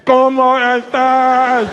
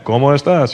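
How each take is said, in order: First: Higher, very slow, slurred "¿Cómo estás?"; mocking a Portuguese speaker greeting; mock Portuguese accent. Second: Crisp Spanish "¿Cómo estás?" in a plain voice; plain Spanish greeting; Spanish speaker. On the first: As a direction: drag out "¿Cómo estás?" like bad Spanish. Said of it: "Here's a Portuguese guy". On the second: Retold or imitated. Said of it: "Here's a Spanish guy".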